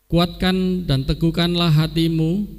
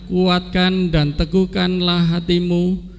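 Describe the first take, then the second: The two takes are said the same way.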